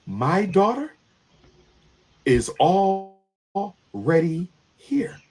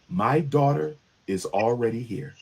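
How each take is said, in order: First: Whispered, drawn out; slow eerie whisper. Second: Emotionless, deadpan report; flat, no emotion. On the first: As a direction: let it hang in a slow whisper. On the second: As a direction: say it with no emotion at all. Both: Retold or imitated. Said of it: "with no emotion at all".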